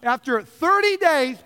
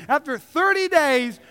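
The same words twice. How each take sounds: The two takes are said the same way.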